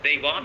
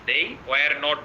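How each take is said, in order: First: Were not is contracted and slightly drawn out. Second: The words were not are said in full.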